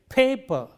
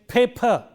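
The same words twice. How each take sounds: First: The second p has no puff of breath. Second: The second p has a puff of breath. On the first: The speaker calls it right. "but I say paper" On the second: The speaker calls it wrong. "I don't say paper"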